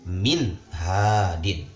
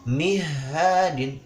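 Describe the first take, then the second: First: The n sound is pronounced clearly. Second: The n sound is dropped or blurred. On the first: The speaker calls it right. "Harus min hadin. Dibaca dengan jelas" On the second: The speaker calls it wrong. "Tidak boleh kita membaca mihadin. Wah, itu pembacaan yang salah"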